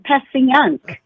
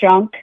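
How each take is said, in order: First: It is said the standard outsider way. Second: It is said the local South Philly way. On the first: This is how outsiders say it should be said. "no, it's Passyunk" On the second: This is how locals say it. "that's how we say it"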